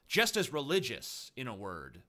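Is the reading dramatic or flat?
dramatic. It is read in a dramatic, emphatic way. The speaker calls it right.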